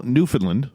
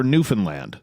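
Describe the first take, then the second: First: Newfoundland said as NOO-fun-lund; standard local pronunciation. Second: Newfoundland said as noo-fun-LAND; eastern pronunciation. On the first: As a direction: say "Newfoundland" with reduced second and last syllables. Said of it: "correct pronunciation of Newfoundland". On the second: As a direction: give "Newfoundland" a full final LAND. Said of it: "if you're in the East". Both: Shown as a demonstration.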